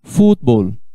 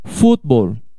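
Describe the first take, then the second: No difference in how they are said.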